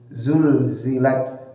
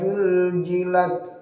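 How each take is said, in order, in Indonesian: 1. Kata ini dimulai dengan bunyi z. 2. Kata ini dimulai dengan bunyi j. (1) "mirip huruf Z" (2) "dirubah ini yang paling sering menjadi huruf jim"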